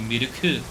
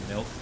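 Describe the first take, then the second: First: It has three syllables with added vowels. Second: It is one syllable, said the English way. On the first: "over pronunciating them in broken Japanese" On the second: "instead of just trying to say milk"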